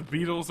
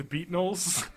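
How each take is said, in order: First: Said in the usual way. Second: "Beatnuls" with an n wedged in after the t; Ricky's mispronunciation. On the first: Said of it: "the [name] are the Beatnuls". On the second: Retold or imitated. Host listing Ricky's botched words, "Beatnuls" said as beet-nulls. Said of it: "He just doesn't pronounce words correctly".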